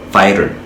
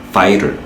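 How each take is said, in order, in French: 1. Il a un accent américain avec un T qui ressemble à un D. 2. Il a un accent américain avec un T qui ressemble à un D.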